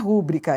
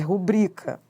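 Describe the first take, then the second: First: The stress falls on the first syllable. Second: The stress falls on the second syllable. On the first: The speaker calls it wrong. "Não é rúbrica" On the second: The speaker calls it right. "é rubrica. Paroxítona"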